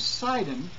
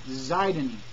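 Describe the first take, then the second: First: The word begins with an S sound. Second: The word begins with a Z sound.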